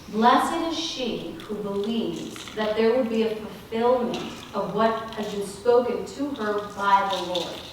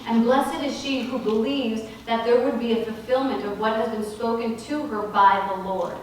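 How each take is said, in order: First: It is said more slowly. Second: It is said at normal speed.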